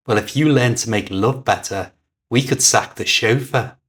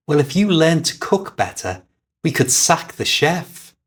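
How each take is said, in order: First: A quick cutting comeback. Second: Said in the usual way. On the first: A narrator's reading. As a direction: snap back lightly, quick and sharp. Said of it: "Her reply was quick and cutting". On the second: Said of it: "he said".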